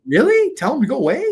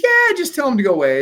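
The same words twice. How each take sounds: First: High, loud disbelieving question; incredulous. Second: Breezy, raised-pitch insistence, falling at the end; dismissive attorney. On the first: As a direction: echo the advice back in disbelief. Retelling disbelief at attorney's advice. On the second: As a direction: wave the worry away as the attorney. Attorney brushes off the worry. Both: Retold or imitated.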